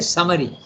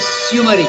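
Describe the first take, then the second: First: The first syllable has a short 'a'-like vowel. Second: The first syllable has an 'oo' vowel. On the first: The speaker calls it right. "you say summary" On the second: The speaker calls it wrong. "you don't say summary"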